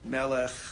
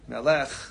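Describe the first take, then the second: First: The stress is on the first syllable. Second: The stress is on the last syllable. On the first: The speaker calls it right. "any word with two segals is malel" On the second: The speaker calls it wrong. "I pronounced it with the accent at the end of the word"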